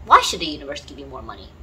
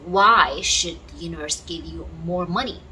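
First: Lower, faster emphatic repeat of the question. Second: Said in the usual way. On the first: Shown as a demonstration. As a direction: repeat it again, lower and faster, to press the point.

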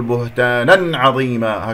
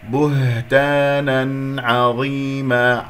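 First: بهتانا عظيما with the n punched and held into the ayn; wrong stressed nun. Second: بهتانا عظيما chanted very slowly, n clean before the ayn; clear nun. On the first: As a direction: lean hard on the final n of بهتانا. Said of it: "لا أقول". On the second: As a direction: recite بهتانا عظيما with an unforced, distinct n. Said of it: "أسمع صوت النون المظهرة". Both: Shown as a demonstration.

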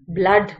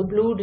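First: "ब्लड" with a short uh, as in bud; UH in blood. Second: "ब्लूड" with a long oo, as in food; OO in blood. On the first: Teacher showing how double o is read here, short uh in "ब्लड". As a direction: say "ब्लड" with a relaxed uh, no oo. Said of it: "ब्लड पढ़ा जाता है". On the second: Teacher showing how not to read blood, long oo in "ब्लूड". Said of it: "हम इसको ब्लूड नहीं पढ़ते". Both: Shown as a demonstration.

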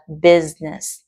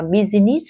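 First: "business" as BIZ-nis, two syllables; correct business. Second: "business" said as biz-i-ness, three syllables; the common wrong "business". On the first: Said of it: "người ta đọc là business". ("business" đọc đúng là biz-nơs) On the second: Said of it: "Mọi người đọc là business". ("business" đọc sai ba âm tiết) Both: Shown as a demonstration.

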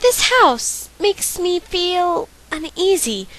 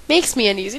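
First: Character voice. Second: Said in the usual way. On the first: Acted. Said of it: "why do I feel the need to do voices". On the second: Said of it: "not feel".

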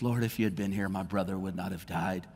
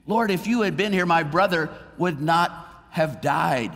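First: Much softer, lower, broken plea; grieving, understated. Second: Louder, higher-pitched cry of complaint; pleading reproach. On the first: Mary at Jesus' feet, softly grieving plea. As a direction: let it sink to a hushed, tearful murmur. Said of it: "she's just bawling her eyes out". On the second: Martha to Jesus, louder reproachful plea. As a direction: call out the complaint, why weren't you here. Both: Retold or imitated.

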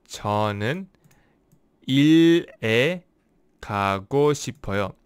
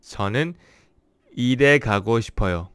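First: 저는 일에 가고 싶어요 said slowly with pauses; slow careful take. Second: 일에 가고 싶어요 said fast in one breath; fast retake. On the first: Teacher trying the Korean sentence again slowly. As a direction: space out 저는, 일에, 가고 싶어요. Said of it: "when I speak slowly". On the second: Teacher retrying a Korean sentence after a slip, fast. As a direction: run 일에 가고 싶어요 together quickly. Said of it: "when I speak slowly, it kind of messes up". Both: Shown as a demonstration.

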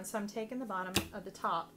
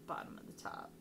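First: Said in the usual way. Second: Breathy whisper under the breath; whispered repeat. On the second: Real, not acted. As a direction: whisper it to yourself as you place the card. Repeats the phrase under her breath.

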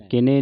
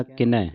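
First: ਕਿਨੇ with a closed "e" ending; mispronunciation demo. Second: ਕਿਨੈ with an open "ai" ending; correct pronunciation. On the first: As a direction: say ਕਿਨੇ as "ki-nay", narrow final vowel. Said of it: "ਕਿਨੇ ਨਹੀਂ ਕਹਿਣਾ". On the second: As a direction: say ਕਿਨੈ as "ki-nai", wide final vowel. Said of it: "ਦਲਾਵਾਂ ਦੇ ਨਾਲ". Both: Shown as a demonstration.

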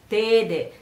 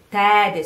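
First: "tede" with a closed first E; slip on vowel. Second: "tede" loud, with an open first E; corrected vowel. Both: Shown as a demonstration.

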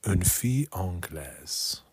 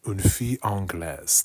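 First: "Une fille anglaise" said slowly, each French sound spelled out; slow careful French. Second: "Une fille anglaise" said with a careful French accent; French phrase. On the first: Learner practising slowly for the app. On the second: Learner repeating the app's phrase aloud. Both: Shown as a demonstration. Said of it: "let's practice pronunciation".

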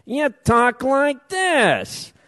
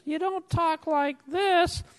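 First: Slow, heavy wiseguy delivery; tough mobster talk. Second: Higher and softer, mild and proper; soft and polite. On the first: Public commenter mocking labor advocates as mobsters, slow tough talk. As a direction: lean on each word like a hired muscle. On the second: Public commenter demonstrating how advocates don't talk, softer and higher. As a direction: say it like a polite office clerk. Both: Shown as a demonstration.

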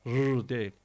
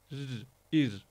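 First: "rr" as a heavy rolled trill; wrong thick R. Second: "rr, ir" with a light front trill; corrected thin R. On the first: Teacher warning students, mistaken heavy "rr". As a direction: roll "rr" thick, as the mistake to avoid. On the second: Teacher correcting the mistake, light thin "rr, ir". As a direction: roll "rr" thinly, then say "ir". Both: Shown as a demonstration.

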